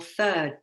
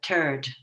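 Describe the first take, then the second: First: The word begins with a th sound. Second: The word begins with a plain t sound.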